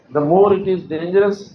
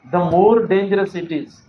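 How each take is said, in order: First: Slow, careful reading of the error; slow deliberate classroom demo; wrong version read slowly. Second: Slow, careful reading of the fix; slow clear model sentence; corrected version read slowly. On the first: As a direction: spell out the mistaken sentence word by word. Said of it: "ये sentence error है". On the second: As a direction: lay out the right word order slowly for students. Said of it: "होना ये चाहिए". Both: Shown as a demonstration.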